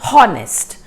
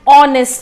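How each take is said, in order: First: The word starts with an audible h sound. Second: The word starts with a vowel sound, h silent. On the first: The speaker calls it wrong. "We are not saying honest" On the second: The speaker calls it right. "So we are saying O sound"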